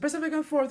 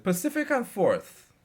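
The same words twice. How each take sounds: First: High, loud echo of the stop; echoing old lady. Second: Louder, slow and firm; raised voice. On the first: Lady on the bus repeating the stop, high and loud. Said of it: "So she said". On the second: Narrator answering the lady on the bus, raised voice. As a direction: call the stop out over the crowd. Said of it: "I raised my voice and said". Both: Retold or imitated.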